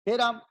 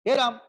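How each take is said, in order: Both takes have the same delivery.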